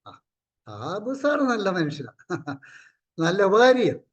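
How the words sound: It is said in a mocking, sarcastic tone. The praise is meant as mockery. "അത് ഒരു സറ്റർ നേച്ചറായിപ്പോയി"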